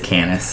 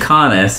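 First: The first vowel is a short 'a' sound. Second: The first vowel is an open 'ah' sound. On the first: This is how readers of the name say it. "anytime anyone reads it, it's Canis" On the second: This is the character's original name. "his name's Canis"

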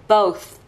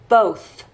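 First: The word ends with a breathy th sound. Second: The word ends with a breathy th sound.

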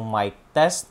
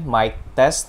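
First: The recording level is set low. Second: The recording level is set medium. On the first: "We're currently sitting at volume level 5" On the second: "Now on volume level 7"

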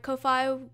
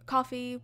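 First: The first vowel is a long 'oh' sound. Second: The first vowel sounds like in 'coffee'. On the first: The speaker calls it wrong. "I've just been pronouncing it Ko-fi" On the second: The speaker calls it right. "it's probably just pronounced coffee"

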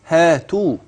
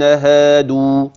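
First: The middle consonant sounds like a t. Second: The middle consonant sounds like a d. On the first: The speaker calls it wrong. "إياك أن تأتي منك تاء" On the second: The speaker calls it right. "جميل"

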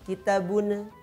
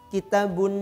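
First: A short bouncing vowel follows the final n. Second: The word ends cleanly on the n sound. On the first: The speaker calls it wrong. "Itu yang keliru" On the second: The speaker calls it right. "Yang tepat adalah"

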